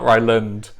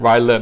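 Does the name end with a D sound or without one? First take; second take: D sound; without. First: The name ends with a D sound. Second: The name ends without a D sound. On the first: The speaker calls it wrong. "not Ryland. I say it with a D sometimes" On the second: The speaker calls it right. "I mean no D"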